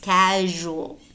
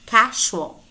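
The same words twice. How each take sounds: First: The middle consonant is a voiced zh sound. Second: The middle consonant is a voiceless sh sound. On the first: The speaker calls it right. "it's casual" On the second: The speaker calls it wrong. "it is not casual"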